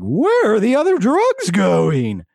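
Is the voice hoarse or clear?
clear. It is said in a clear, non-hoarse voice.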